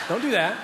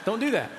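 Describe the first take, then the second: First: 'do' 세게 눌러서 단호하게; firm don't do that. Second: 'do'를 강조하되 조금 부드럽게; softer don't do that. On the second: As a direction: DO stressed but softer, falling. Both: Shown as a demonstration.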